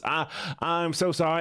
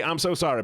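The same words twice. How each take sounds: First: Slow, higher Southern drawl; drawn-out Southern-accented apology; put-on Southern accent. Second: Said in the usual way. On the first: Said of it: "I'm gonna go back to the Southern voice". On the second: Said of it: "I forgot the Southern voice".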